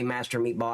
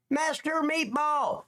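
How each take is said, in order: First: Said in the usual way. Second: "Master Meatball" stretched out, much higher; drawn-out greeting. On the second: Real, not acted. Streamer greeting a chatter, drawn-out and high.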